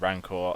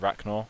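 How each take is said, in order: First: The name is said with a plain n-k sound. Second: The name is said with a 'chn' sound. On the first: The speaker calls it right. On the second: The speaker calls it wrong.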